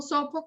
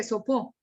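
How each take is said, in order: First: "sopo" with the stress on SO; stress on first syllable. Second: "sopó" with the stress on the final PÓ; stress on last syllable. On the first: Teacher showing what a student cannot hear, stress on SO in "sopo". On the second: Teacher showing what a student cannot hear, final stress on "sopó". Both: Shown as a demonstration. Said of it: "hacer un énfasis en".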